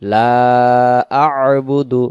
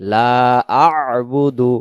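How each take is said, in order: No difference in how they are said.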